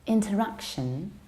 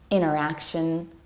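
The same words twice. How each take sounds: First: The T after the N is clearly pronounced. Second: The T after the N is dropped. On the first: "in British accents, we pronounce N and T in a very clear" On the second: "American accent, we tend to skip T"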